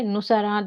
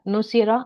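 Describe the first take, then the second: First: The second vowel is an 'a' sound. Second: The second vowel is an 'i' sound. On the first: The speaker calls it wrong. "नुसारा डालेंगे तो सही नहीं लग रहा है" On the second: The speaker calls it right. "नुसीरा अब सही लग रहा है"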